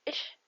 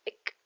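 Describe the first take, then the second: First: The ending is a soft 'ich' sound. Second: The ending is a hard 'ik' sound. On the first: Some regions say it this way. "يا إما إش" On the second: Other regions say it this way. "يا إما إك"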